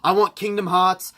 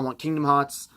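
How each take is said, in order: First: It sounds blunt and demanding. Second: It sounds gentle and polite. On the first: "I didn't say it like that" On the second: "I was much more polite"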